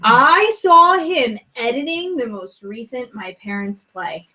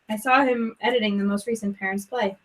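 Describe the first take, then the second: First: It sounds sincere and convinced. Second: It sounds flat and unconvinced.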